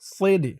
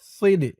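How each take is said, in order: First: The s sound is heavy and emphatic. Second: The same.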